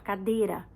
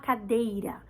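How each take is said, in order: First: The word is said quickly, with sounds clipped. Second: The word is said carefully, with every sound. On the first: This is the rushed everyday form she picked up. The speaker calls it wrong. "ela fala cadeira. Porque é o que a gente fala na correria" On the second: This is the standard form she does not use. The speaker calls it right. "Ela não fala cadeira"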